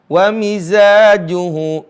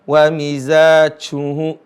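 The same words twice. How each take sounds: First: The letter jim sounds like a voiced 'j'. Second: The letter jim sounds like a voiceless 'ch'. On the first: The speaker calls it right. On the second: The speaker calls it wrong. "bukan wa mizajuhu, cuhu"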